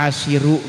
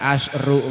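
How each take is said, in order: First: An i vowel comes right after the sh sound. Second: No vowel comes right after the sh sound. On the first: "dibaca asyiru ge mangga" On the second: "Bae dibaca asyru mangga"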